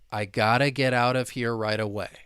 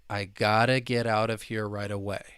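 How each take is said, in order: Both takes have the same delivery.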